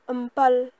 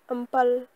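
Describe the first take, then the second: First: The syllables are run together into a shortened form. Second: The same.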